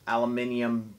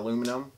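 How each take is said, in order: First: It is said the British way, aluminium. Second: It is said the American way, aluminum.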